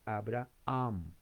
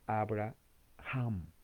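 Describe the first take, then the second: First: The h is not pronounced at all. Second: The h is pronounced with a strong breath. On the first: This is how Spanish speakers say it. "En español la H es muda, se lee" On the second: This is how English speakers say it. "En inglés la H es J, se dice"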